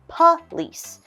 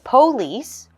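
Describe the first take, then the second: First: The first vowel is a reduced 'uh' sound. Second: The first vowel is a full 'oh' sound. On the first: The speaker calls it right. "we will say police" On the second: The speaker calls it wrong. "there is an O, but we are going to change that to a U H sound. So instead of police"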